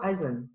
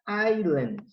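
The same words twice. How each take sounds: First: The word has a very quick S sound. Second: The word is said with no S sound. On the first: "quando ele não é cortado em alguns, alguns sotaques, ele é bem rapidinho" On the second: "como se não tivesse esse S"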